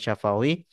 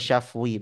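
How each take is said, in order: First: The word is said with three syllables. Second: The word is said with two syllables. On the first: This is the full form of the term. The speaker calls it wrong. "bukan syafawi" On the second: This shortened form fits the metre of the verse. The speaker calls it right. "nanti dalam setoran harus dibaca syafwi"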